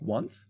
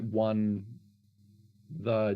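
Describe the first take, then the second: First: The name is said as one syllable. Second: The name is said as two syllables. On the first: "is it pronounced like once?" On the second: "Or is it is it one the Jester?"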